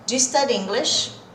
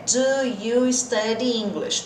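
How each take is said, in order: First: Do and you blend into one quick j sound. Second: Do and you are said slowly and separately. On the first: "Do com you é j, j. Esse é o som" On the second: "Tô falando devagarzinho"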